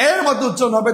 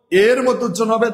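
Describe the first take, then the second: First: এ in এর said as an open "ae"; open vowel demo. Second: এ in এর said as a closed "e"; closed vowel demo. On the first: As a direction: pronounce এর as "aer", with the vowel of "cat". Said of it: "বিবৃত". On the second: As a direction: pronounce এর with a close "e", as in "er". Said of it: "তখন সংবৃত". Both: Shown as a demonstration.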